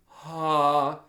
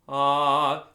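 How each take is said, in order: First: The syllable has a heavy, pushed breath. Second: The syllable has a light, natural breath. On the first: The speaker calls it wrong. "not overly aspirating" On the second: The speaker calls it right. "the breath has a natural impulse"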